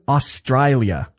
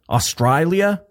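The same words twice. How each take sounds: First: Said in the usual way. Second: A hammed-up Aussie "Australia?" with "Aus-TRY-lia" vowels, pitched up; mock Australian, saying "Australia?" as "Ostraylia"; bad Australian accent. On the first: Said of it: "that's the worst". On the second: Shown as a demonstration. Podcast host greets his Melbourne listener in a bad Australian accent. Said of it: "That's the worst Australian accent ever".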